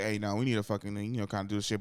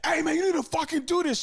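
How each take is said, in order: First: Understated, half-hearted telling-off; lightly voiced, hesitant nudge to a teammate; mild-mannered leader. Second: High, loud, confrontational bark; Draymond in your face. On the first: Curry trying to lead his teammates, mildly and without force. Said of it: "Like, Curry Lee". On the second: Acted. Vocal leader getting in a teammate's face, aggressive yelling. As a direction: go overboard chewing out a teammate. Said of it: "Draymond will get in your face".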